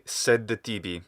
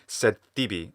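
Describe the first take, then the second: First: A short vowel is heard between the two words. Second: The d merges into a doubled t sound. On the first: The speaker calls it wrong. "little schwa again" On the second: The speaker calls it right. "So it should be sed tibi"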